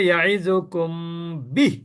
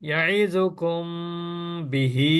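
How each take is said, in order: First: The last word ends on a consonant, no vowel. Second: The last word ends on a lengthened vowel. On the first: The reader stops at this point. "যদি এখানে আপনার থেমে যান" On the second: The reader does not stop here. "আর যদি এভাবে পড়েন"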